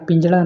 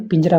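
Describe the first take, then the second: First: पिंजड़ा with a flap for r; mispronunciation. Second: Said in the usual way. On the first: Shown as a demonstration. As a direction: curl the tongue on the last syllable of पिंजड़ा. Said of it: "पिंजड़ा नहीं". (पिंजड़ा में 'र' की जगह 'ड़') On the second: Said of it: "पिंजरा होता है".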